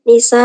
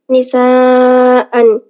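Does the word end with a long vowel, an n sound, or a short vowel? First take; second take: short vowel; n sound. First: The word ends with a short open vowel. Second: The word ends with an n sound. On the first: The speaker calls it wrong. "bukan nisa" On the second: The speaker calls it right. "Ketika wasol"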